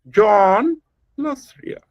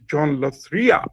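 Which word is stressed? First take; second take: John; Ria. First: The stress falls on the word John. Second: The stress falls on the word Ria. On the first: "Put the emphasis on John" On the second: "the third way of speaking the same sentence"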